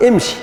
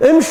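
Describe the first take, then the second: First: امشي with a final "ee"; original form with yaa. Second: امش ending on "sh", no final vowel; clipped final yaa. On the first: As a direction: say "im-shee" for امشي. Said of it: "وأنت تعرف أن أصلها". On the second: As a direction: say "imsh" for امش. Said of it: "إيش تقول له؟". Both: Shown as a demonstration.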